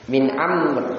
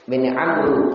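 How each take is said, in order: First: The name ends on a consonant, no final vowel. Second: The name ends with an added final u vowel. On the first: The speaker calls it wrong. "Boleh juga dibaca bin Amr" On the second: The speaker calls it right. "Ada U-nya"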